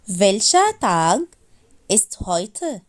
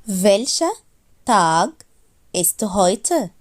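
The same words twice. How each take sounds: The two takes are said the same way.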